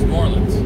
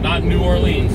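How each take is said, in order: First: The word new is said lightly and briefly. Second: The word new is said fully and strongly. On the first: The speaker calls it right. "You're just putting less emphasis on the word new" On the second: The speaker calls it wrong.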